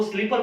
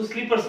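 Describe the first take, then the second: First: स्लीपर ending on r, no s; mistaken singular. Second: स्लीपर्स with a final s; correct plural form. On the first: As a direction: drop the s from स्लीपर. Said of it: "स्लीपर बोलेंगे तो गलत हो जाएगा". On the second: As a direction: end स्लीपर्स on an s sound. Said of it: "उसको स्लीपर्स बोलते हैं". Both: Shown as a demonstration.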